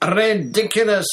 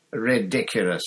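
First: High, very loud bellowed spell. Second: Casual, unhurried spell; almost lazy. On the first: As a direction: bellow it out with force. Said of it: "bellowed Ron". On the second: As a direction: toss it off almost lazily. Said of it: "almost lazily". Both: A narrator's reading.

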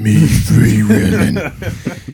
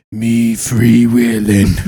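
First: Slow demon growl, half laughing. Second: Slow, growled demon voice. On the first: Retold or imitated. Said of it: "that same demonic voice". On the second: Acted. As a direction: drag it out like a demon. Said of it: "in that same de-, demonic voice".

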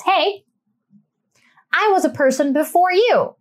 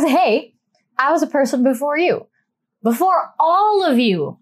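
First: Lightly voiced Charlotte putting her foot down; a hint of Charlotte snapping at her family; mildly mock-stern Charlotte; Charlotte impression. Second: A touch more firmness the second time; lightly voiced Charlotte insisting she matters. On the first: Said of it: "Am I doing a good Charlotte impression". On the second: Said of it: "She goes".

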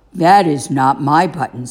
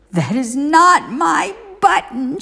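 First: Said in the usual way. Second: High, pushed mock shout; angry Toad shouting at Frog. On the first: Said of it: "said Toad". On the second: A narrator's reading. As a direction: throw it out in a storybook temper. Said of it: "shouted Toad".

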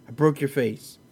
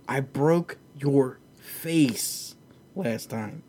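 First: Said in the usual way. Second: Very slow, flat-out unimpressed delivery; slow, calm put-down; deadpan calm. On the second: Retold or imitated. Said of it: "Kamaru just looks at him and goes".

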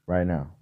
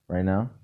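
First: "Right now." said low and settled, falling on "right"; "Right now." stated flatly as a fact, dropping at the end; falling statement. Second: "Right now?" asked with the pitch rising on "now"; "Right now?" said as a puzzled question, ending up on "now". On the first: Answering own question. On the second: Asking again about timing. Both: Acted.

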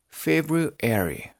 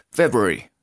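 First: Slow February, Febru plus airy; February in two drawn-out chunks; broken into parts. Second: February said quickly as Febry; February with the middle squeezed out; run together. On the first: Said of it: "luego póngale el airy". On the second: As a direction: blend February into one short word, Febry. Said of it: "de tanto repetirlo le va agarrando". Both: Shown as a demonstration.

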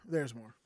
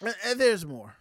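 First: Teasing aside. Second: Said in the usual way. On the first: Real, not acted. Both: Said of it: "teasing more story".

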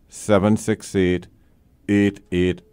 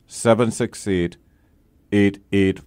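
No difference in how they are said.

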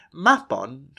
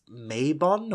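First: Said in the usual way. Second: Mabon said as MAY-bon; mistaken Mabon pronunciation. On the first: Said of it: "or perhaps you may have heard it mistakenly pronounced". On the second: Shown as a demonstration. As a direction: say Mabon with a long "ay" and a full "on". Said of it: "mistakenly pronounced as".

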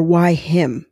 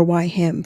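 First: An unvoiced whisper on "Why him?". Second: Said in the usual way. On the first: Shown as a demonstration. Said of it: "what I'm careful of not doing is saying". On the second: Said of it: "I don't say".

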